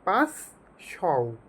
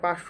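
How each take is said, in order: First: It is said as two parts ending in 'shao'. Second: It is said as one word ending in 'sho'. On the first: It recalls the first syllable of the commander's name. The speaker calls it right. "উচ্চারণ করবা পাঁচ শও" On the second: It is the ordinary number five hundred. The speaker calls it wrong. "পাঁচশো উচ্চারণ না করে"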